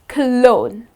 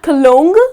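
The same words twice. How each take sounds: First: No G sound is pronounced in the word. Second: A G sound is pronounced in the word. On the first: The speaker calls it right. "the letter G here goes silent" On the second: The speaker calls it wrong. "It's not cologne"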